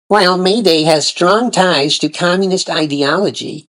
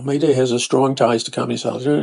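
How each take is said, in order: First: It is read in a put-on voice. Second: It is read in his normal voice.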